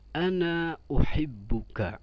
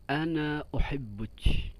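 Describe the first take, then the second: First: The last word ends with a k sound. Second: The last word ends with a ch sound. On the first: This is the standard form. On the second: This is the colloquial form.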